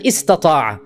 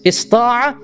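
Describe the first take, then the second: First: Istata'a with the extra ta sounded; long verb form. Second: Ista'a with only one t-sound; short verb form. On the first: Teacher pointing out both verbs, long istata'a. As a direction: give istata'a its added syllable. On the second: Teacher pointing out both verbs, short ista'a. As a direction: cut the middle ta from ista'a. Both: Shown as a demonstration. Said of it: "notice Allah uses both verbs".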